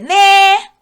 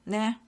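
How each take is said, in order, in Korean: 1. "네"는 밝고 기쁜 말투로 말해요. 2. "네"는 마지못해 하는, 못마땅한 말투로 말해요. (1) "기쁨의 네" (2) "불만의 표지"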